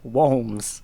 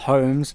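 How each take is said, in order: First: The name begins with a W sound. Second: The name begins with an H sound. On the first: The speaker calls it right. "it's pronounced Harbo Wolms" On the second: The speaker calls it wrong. "not Holmes"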